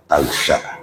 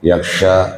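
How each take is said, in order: First: The word begins with a t sound. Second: The word begins with a y sound. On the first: "boleh juga dibaca tagsha" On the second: "boleh dibaca dengan ya dan ta"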